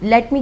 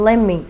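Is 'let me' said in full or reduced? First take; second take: full; reduced. First: Both words are said fully, with a clear t. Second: The words run together as lemme, without t. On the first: "लेट मी की जगह" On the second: "आप कहें लेम मी"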